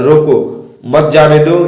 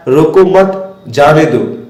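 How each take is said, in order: First: "रोको" alone, clear break, then slow "मत जाने दो" as one unit; pause after रोको. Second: "रोको मत" as one unit, long break, then slow "जाने दो"; pause after मत. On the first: Teacher showing the person must be stopped, pause after रोको. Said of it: "आगे नहीं जाने देना है". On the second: Teacher showing how punctuation lets the person go, pause after मत. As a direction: split it clearly after मत. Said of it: "उसे रोकना नहीं है". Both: Shown as a demonstration.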